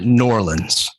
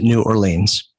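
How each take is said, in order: First: The name is run together as one word. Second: The name is said as two separate words. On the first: The speaker is a local of the city. "If you're from here, you pronounce it New Orleans" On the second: The speaker is from outside the city. "If you're from London, you pronounce it New Orleans"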